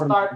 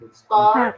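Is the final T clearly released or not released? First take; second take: not released; released. First: The final T is not released. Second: The final T is released with a burst. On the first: The speaker calls it wrong. "jangan start aja" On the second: The speaker calls it right. "Kayak ada ujungnya ada pantulan. Jadi start"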